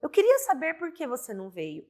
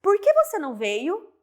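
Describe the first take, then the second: First: Flat statement, falling at the end, "queria" most prominent; falling statement with no question rise; statement tune. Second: High question, rising on "que" and through "veio"; rising question with "que" stressed; question tune. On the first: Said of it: "vai ficar assim". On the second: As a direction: ask it as a real question, lifting at the end. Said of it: "Pensa assim". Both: Shown as a demonstration.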